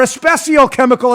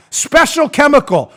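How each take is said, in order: First: Especial chemical with an extra e sound at the front; imitating how the mother-in-law says especial; mother-in-law's pronunciation. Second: Said in the usual way. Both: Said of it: "as my mother-in-law calls it".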